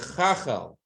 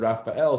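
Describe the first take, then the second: First: The name begins with a Ch sound. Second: The name begins with an R sound.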